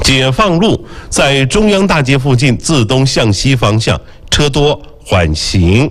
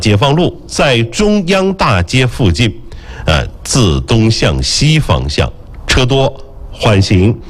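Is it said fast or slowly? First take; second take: fast; slowly. First: It is said at a quicker pace. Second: It is said at a slower pace.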